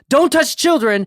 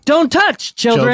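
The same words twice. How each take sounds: First: The phrase runs on without any pause. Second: There is a pause between touch and children. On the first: Nobody should touch the children. "but then no comma" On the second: Children are being told not to touch something. "don't touch, comma, children"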